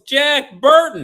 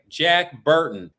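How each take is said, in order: First: The name is said more loudly. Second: The name is said at normal volume.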